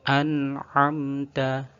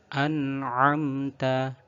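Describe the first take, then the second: No difference in how they are said.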